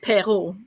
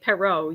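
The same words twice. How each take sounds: First: The name is said with its original, non-English pronunciation. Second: The name is said with an English pronunciation. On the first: "But it's Perot" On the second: "English speaking people will say Perot"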